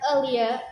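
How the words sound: It is said in a British accent.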